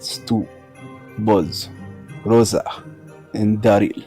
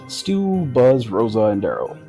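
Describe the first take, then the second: First: It is said in a put-on Russian accent. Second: It is said in the speaker's ordinary accent.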